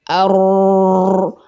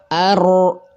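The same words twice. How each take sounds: First: The r is trilled softly throughout its length. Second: The r is trilled briefly, only at the start. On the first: "getarannya ada tapi lebih pelan" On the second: "getarannya cuma pertama"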